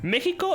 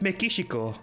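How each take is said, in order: First: The name is said with Spanish pronunciation. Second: The name is said with Japanese pronunciation. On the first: "Mexico in Spanish" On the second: "in Japanese it's Mexico"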